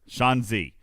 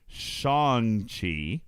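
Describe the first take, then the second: First: The second part starts with a 'dz' sound. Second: The second part starts with a 'ch' sound. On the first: The speaker calls it right. "It's like a combination Chi and Z" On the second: The speaker calls it wrong. "sorry, Shang. It's not even Chi"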